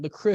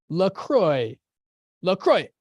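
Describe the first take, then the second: First: LaCroix said the French way, ending like "lah-kroo"; mock-French LaCroix, "lah-kroo"; French-style LaCroix. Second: LaCroix said "lah-kroy" with a strong falling tone, louder; playful tonal LaCroix, "lah-kroy" falling sharply; LaCroix with Mandarin tones. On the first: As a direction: put a light French twist on LaCroix, final vowel as "oo". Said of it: "I try to make it with a French accent". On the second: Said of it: "I gotta add tones to it, like Mandarin". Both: Shown as a demonstration.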